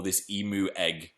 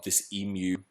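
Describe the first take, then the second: First: Low, quiet emu without the y; emu as "ee-moo". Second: Low, quiet emu with a y glide; emu as "ee-myoo". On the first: Host rewording for viewers, emu as "ee-moo". Switches to other pronunciation. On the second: Host building suspense about the egg, emu as "ee-myoo". Says emu two ways. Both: Shown as a demonstration.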